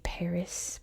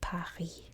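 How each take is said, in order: First: It is said with English pronunciation. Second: It is said with French pronunciation. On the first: "I say Paris" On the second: "there they say Paris"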